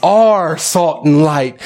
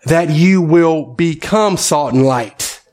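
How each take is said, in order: First: Slow, the word "Are" hit firmly; stress on are. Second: Slow, leaning hard on "become"; "become" stretched and stressed as the wrong word. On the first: Pastor answering his own question, stressing "Are". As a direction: land hard on "Are", then ease off. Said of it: "But he tells them that they what?". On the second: Pastor to church, contrasting the word: stressed "become". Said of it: "does not tell these disciples of his". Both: Shown as a demonstration.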